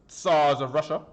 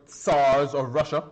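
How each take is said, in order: No difference in how they are said.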